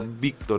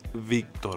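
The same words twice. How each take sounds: First: The first sound is made with both lips. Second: The first sound is made with lip and teeth. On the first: The speaker calls it wrong. "no Víctor" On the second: The speaker calls it right. "es Víctor"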